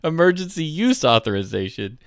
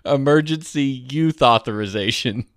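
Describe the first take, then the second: First: The middle word ends with an 's' sound. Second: The middle word ends with a 'th' sound. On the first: The speaker calls it right. "He would never say emergency use authorization" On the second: The speaker calls it wrong. "Jacob would always say emergency youth authorization"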